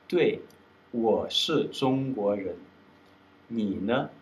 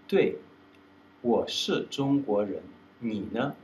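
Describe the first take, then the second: Both takes have the same delivery.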